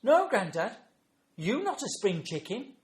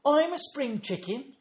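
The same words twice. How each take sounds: First: Put-on high, loud scornful child voice; imitated small child's utter disdain; disdainful granddaughter. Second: Put-on high, slow, loud child voice; imitated small child's gleeful claim; excited little granddaughter. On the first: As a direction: put Grandad down like a withering toddler. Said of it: "looked up at me with utter disdain". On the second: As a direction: announce it proudly like a toddler. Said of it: "she says, and started flapping her arms".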